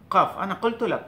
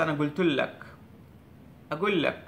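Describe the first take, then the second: First: আনা কুলতু লাক with কুলতু hit hard, higher and louder; Yemeni hard qaf. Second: আনা কুলতু লাক with কুলতু said as গুলতু; Saudi pronunciation. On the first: Teacher imitates Yemenis saying the qaf hard, emphatic. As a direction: bite down on the k of কুলতু. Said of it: "খুব hard করে উচ্চারণ করে". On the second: Teacher imitating how Saudis say the phrase, softened g. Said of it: "এরা সৌদিরা বলছে". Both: Retold or imitated.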